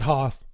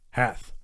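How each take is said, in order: First: The vowel sounds like the one in 'hot'. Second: The vowel sounds like the one in 'hat'. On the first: The speaker calls it wrong. "Not Hoth" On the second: The speaker calls it right. "but it's going to be Hath"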